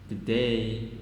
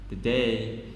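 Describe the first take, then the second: Both takes have the same delivery.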